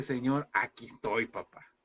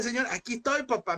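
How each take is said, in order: First: Tender prayer. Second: Higher, ringing declaration to God; bold praise. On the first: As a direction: hush it like a tearful prayer. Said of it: "pero decirle". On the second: Preacher urging the congregation to declare praise, high and fervent. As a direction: proclaim it with fervent faith. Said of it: "Levante alabanza y dígale". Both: Acted.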